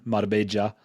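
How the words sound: The double L sounds like j. It is Colombian Spanish. "in Colombia, that y town, uh, changes to a j"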